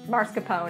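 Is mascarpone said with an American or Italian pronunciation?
American. The word has a plain American pronunciation. This is the casual everyday way of saying it. "it's mascarpone if you're me"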